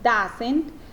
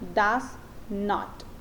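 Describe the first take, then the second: First: It is said as one contracted word. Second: It is said as two separate words. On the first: "Aquí tenemos una forma contraída" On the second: "de una forma más formal o educada, por decirlo así, eh, utilizándolo eh, separado"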